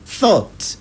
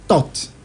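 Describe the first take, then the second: First: The word begins with a th sound. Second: The word begins with a t sound. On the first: The speaker calls it right. "they can never say thought" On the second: The speaker calls it wrong. "They will keep saying thought"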